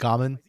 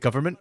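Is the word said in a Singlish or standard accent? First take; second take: Singlish; standard. First: It is said in a Singlish accent, like 'gamen'. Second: It is said with a standard pronunciation.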